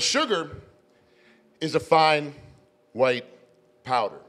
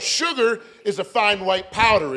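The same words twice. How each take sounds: First: It is said at normal volume. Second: It is said louder still.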